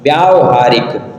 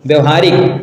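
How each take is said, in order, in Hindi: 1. पहले अक्षर में दीर्घ स्वर है। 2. पहले अक्षर में ह्रस्व स्वर है।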